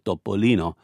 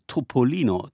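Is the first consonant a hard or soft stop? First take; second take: soft; hard. First: The first consonant is a soft, unaspirated stop. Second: The first consonant is a hard, aspirated stop. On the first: The speaker calls it right. "ist und bleibt der Topolino" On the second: The speaker calls it wrong. "Kein Bayer wird auf die Idee kommen, Topolino zu sagen"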